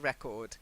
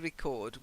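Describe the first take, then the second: First: The stress falls on the first syllable. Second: The stress falls on the second syllable. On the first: The speaker calls it wrong. "not a record" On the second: The speaker calls it right. "To record. We record it in our book. So that's to. That's the verb"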